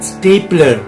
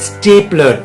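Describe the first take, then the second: No difference in how they are said.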